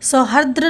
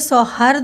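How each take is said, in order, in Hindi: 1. शब्द का अंत 'dra' ध्वनि से होता है। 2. शब्द का अंत सादे 'd' ध्वनि से होता है। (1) "सौहार्द्र ना होकर के" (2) "यानी कि द्र की मात्रा नहीं होती"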